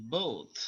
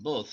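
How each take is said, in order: First: Slower both with the th let go gently; American both, released slowly. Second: Both with a quick sharp th release; British both, released quickly. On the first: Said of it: "একটু slow ভাবে ছাড়বে". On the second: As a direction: flick the th of both out fast. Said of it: "আর ব্রিটিশটা হলো". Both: Shown as a demonstration.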